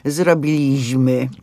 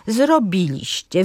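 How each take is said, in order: First: Zrobiliśmy with LI punched loud and slow; mock the dialect stress on LI in Zrobiliśmy; Zrobiliśmy said louder and slowly, stressing LI as a bad example; wrong stress on the penultimate syllable. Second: Zrobiliście stressed on BI, slow and careful; zrobiliście said slowly, stress on BI; correct stress, third-to-last syllable. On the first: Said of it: "nie ma nic gorszego niż właśnie to powiedzenie". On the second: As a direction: lean on the BI of zrobiliście, keep the last two syllables light. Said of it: "Na trzecią sylabę od końca akcent pada".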